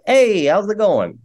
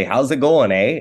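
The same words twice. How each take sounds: First: Imitating his kids' California "Hey, how's it going?", much higher and slow; mock little LA kid saying "Hey, how's it going?" with no "eh"; California kid accent. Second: A light Canadian "How's it going, eh?" with the "eh" tacked on; Canadian accent. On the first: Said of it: "And they're like". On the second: Shown as a demonstration. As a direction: say "How's it going, eh?" like a true Albertan. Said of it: "I've tried to teach them how to say".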